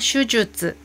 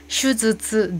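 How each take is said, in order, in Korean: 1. 두 번째 음절은 'ju'로 발음해요. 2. 두 번째 음절은 'zu'로 발음해요. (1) "슈주츠인데요" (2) "즈츠 발음하시면 안 되고"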